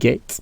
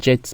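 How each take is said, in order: First: The g is said as a hard g sound. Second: The g is said as a soft j sound. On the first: The speaker calls it right. "mais on dit get" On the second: The speaker calls it wrong. "on ne dit pas jet"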